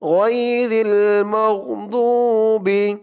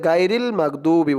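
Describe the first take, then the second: First: The first syllable is said like 'goi'. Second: The first syllable is said like 'gai'. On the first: The speaker calls it right. "বলতে হবে গই" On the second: The speaker calls it wrong. "অনেকে বলে গাইরিল মাগদুবি বলে, গাইরিল বলা যাবে না"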